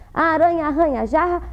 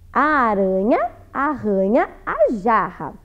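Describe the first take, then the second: First: It is spoken quickly. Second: It is spoken slowly. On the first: "vou tentar falar mais rápido" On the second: "vou ler devagar"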